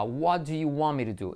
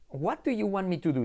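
First: "What do you want me to do" linked and reduced, words run together; natural connected American English. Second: Higher-pitched learner imitation, each word of "What do you want me to do" separate; learner's careful pronunciation. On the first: Shown as a demonstration. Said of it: "Por ejemplo, la frase será". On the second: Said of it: "Y vosotros diréis".

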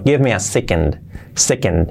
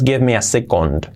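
First: "second" as "SEK-end", falling; correct pronunciation. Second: "second" ending in a full "kond"; wrong pronunciation. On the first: Teacher correcting the phrase, right SEK-end. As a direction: reduce the o of "second" to a weak e. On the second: Teacher showing the error in a phrase, wrong se-KOND. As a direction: misread "second" with a strong o. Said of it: "no es". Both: Shown as a demonstration.

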